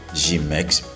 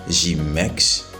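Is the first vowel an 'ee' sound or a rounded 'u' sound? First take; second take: ee; ee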